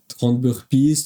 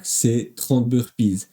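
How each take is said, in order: First: Said in the usual way. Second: Trente hit hard, slowed down and falling; stress on trente. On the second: Shown as a demonstration. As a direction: land on trente firmly, slowly. (appuyer fortement sur trente, lentement) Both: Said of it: "pas vingt-neuf".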